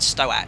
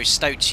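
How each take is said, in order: First: The word is pronounced unlike the animal name. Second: The word is pronounced like the animal name. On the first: The speaker calls it wrong. "I mispronounced it completely. I think I said Stoat" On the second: The speaker calls it right. "you know, the little furry animal"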